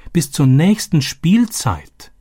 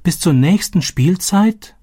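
First: Higher, slow, falling in dismay; dismayed echo. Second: Much higher, slow, rising in shock; can't believe what she hears; shocked disbelief. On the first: A narrator's reading. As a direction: let the dread sink in. Narrator echoes dawning realisation. (bestürzt, höher, langsam und fallend) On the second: Acted. „Was?. (fassungslos, viel höher und langsam fragend)

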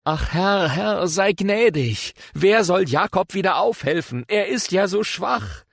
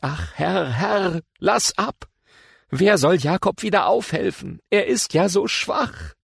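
First: Higher, slow, begging plea to the Lord; pleading prayer. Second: Higher, very slow, begging plea; pleading prayer. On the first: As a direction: plead slowly, voice raised in distress. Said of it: "sprach ich". (flehend, höher und langsam) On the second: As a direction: draw out the plea to the Lord. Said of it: "Da sprach ich". (flehend, höher und sehr langsam) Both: Acted.

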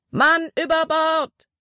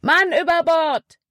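First: Slow, high shout from across the water; distant shout. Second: Much higher, louder alarm call; urgent shout. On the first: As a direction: call it out slowly, much higher. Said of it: "wurde auf der War Eagle geschrien". (gedehnter, hoher Ruf aus der Ferne) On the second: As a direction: punch Mann hard, falling. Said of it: "rief Caleb". (lauter, hoher Alarmruf) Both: A narrator's reading.

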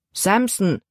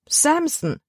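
First: Said in the usual way. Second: Much higher, exclaimed name; Libby repeats the dog's name in shock, high and exclaimed; girl's dismayed cry. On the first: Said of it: "antwortete ihr Vater". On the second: A narrator's reading. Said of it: "rief Libby".

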